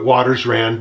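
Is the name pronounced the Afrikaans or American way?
American. The name is said with an American pronunciation. This is how it is normally said in America. "I pronounce things the American way"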